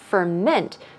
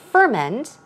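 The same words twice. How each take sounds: First: The stress is on the second syllable. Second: The stress is on the first syllable. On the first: It is used as a noun. "the stress goes right there on the second syllable" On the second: It is used as a verb. "As a verb, the stress goes on the first syllable"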